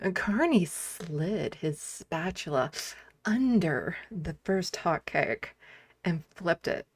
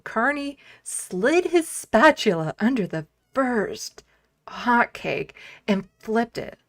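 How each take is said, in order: First: It is read in a suggestive, sultry tone. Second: It is read in a plain news tone.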